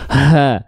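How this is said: The sound is forced heavily out from the chest. The speaker calls it wrong. "nggak perlu dilafalkan terlalu berlebihan, keluar dari dada di sini"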